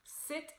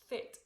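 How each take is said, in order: First: Said in the usual way. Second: "fit" with tongue between teeth, th for s; interdental lisp. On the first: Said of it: "instead of sounding like sit". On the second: Shown as a demonstration. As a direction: say "fit" as a lisped sit. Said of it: "it would sound like fit, like the T H".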